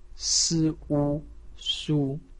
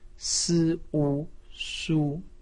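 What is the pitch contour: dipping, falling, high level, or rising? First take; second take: high level; high level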